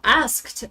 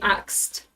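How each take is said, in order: First: The consonants are said in the order s then k. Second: The consonants are said in the order k then s. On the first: The speaker calls it right. "For example" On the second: The speaker calls it wrong. "people just say axed"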